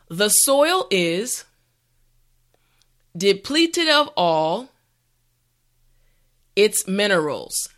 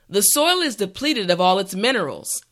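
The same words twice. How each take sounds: First: The sentence is said slowly and carefully. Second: The sentence is said at a natural speed. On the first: "this time repeat after me" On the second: "the last time at a regular pace"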